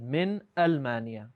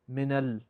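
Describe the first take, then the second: First: The n stops before the word's own initial glottal stop. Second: The n links into the next word with a vowel. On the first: The speaker calls it right. "We said min Almania" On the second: The speaker calls it wrong. "we didn't say minal"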